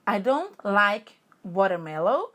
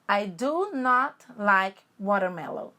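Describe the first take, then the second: First: The negative is contracted into one syllable. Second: The negative is said as two full words. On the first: "Um do jeito contracto, abreviado" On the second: "e o outro do jeito normal"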